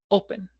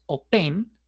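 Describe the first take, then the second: First: The stress is on the first syllable. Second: The stress is on the last syllable. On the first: The speaker calls it right. "el acento no está en la última sílaba" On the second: The speaker calls it wrong. "no es open"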